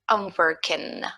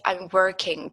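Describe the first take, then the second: First: The final G sound is not pronounced. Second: The final G sound is clearly pronounced. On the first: The speaker calls it right. "we don't say this last G, we don't pronounce it. So you just say" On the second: The speaker calls it wrong. "Many students say"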